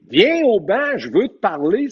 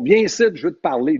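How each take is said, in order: First: Calling out over the crowd. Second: Said in the usual way. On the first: Retold or imitated. Coach yelling to the referee across the noisy rink. Il criait à l'autre bout.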